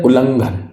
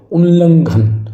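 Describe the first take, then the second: First: उल्लंघन with only one l; wrong single l. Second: उल्लंघन with a long doubled middle, higher; double consonant. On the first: Teacher shows faulty उल्लंघन with a single short l. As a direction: say उल्लंघन as "u-langhan". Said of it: "यहाँ पर एक ला था". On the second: Teacher stresses the double consonant in उल्लंघन. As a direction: say उल्लंघन emphatically as "ul-langhan". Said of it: "यानी double ला है". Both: Shown as a demonstration.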